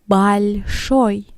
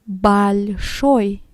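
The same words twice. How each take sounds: First: The unstressed o is changed from its written sound. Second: The unstressed o is changed from its written sound.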